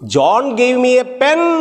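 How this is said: The stress is on pen.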